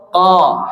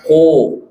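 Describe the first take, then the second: First: Ko with open a-like vowel; open mouth. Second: Ko with rounded o; pouted lips. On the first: Teacher telling mothers to watch, open-mouthed Ko. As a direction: open wide on "Ko". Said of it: "Tuh, mangap ya". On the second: Teacher warning against this reading, pouted ko. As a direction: purse the lips on "ko". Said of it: "Jangan dibaca ko". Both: Shown as a demonstration.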